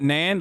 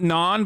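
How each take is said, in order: First: The syllable is said with an 'a' vowel. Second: The syllable is said with an 'o' vowel. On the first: The speaker calls it right. "but Nan" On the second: The speaker calls it wrong. "Not non"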